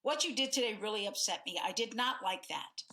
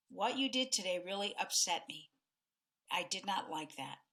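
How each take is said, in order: First: Quick, pressed and upset; mildly heated, hurried complaint. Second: Calm tone. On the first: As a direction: push the complaint out fast. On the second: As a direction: lay it out gently and calmly. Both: Shown as a demonstration. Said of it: "both of those tones".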